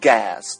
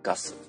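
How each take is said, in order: First: It is said with English pronunciation. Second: It is said with Japanese pronunciation. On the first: "英語で言うと" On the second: "日本語で言うと"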